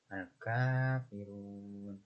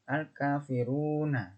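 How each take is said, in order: First: The word ends on a bare consonant. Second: The word ends with a final short vowel. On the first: The reading stops at this word. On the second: The reading continues without stopping.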